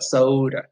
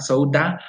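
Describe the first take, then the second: First: The final vowel is reduced to schwa. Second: The final vowel is a full vowel. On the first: The speaker calls it right. "but soda" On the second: The speaker calls it wrong. "for sure not soda"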